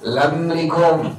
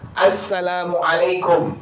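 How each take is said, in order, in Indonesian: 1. Salamnya diucapkan tidak jelas dan terpotong sangat pendek. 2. Salamnya diucapkan lengkap, setiap suku katanya jelas. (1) "Ngucapin salah" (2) "benar mengucapinnya"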